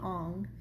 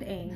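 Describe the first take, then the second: First: The vowel sounds like the 'o' in 'on'. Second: The vowel sounds like the 'a' in 'cat'. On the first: The speaker calls it wrong. "not Ong" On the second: The speaker calls it right. "and Aang"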